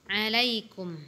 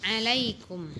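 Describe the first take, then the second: No difference in how they are said.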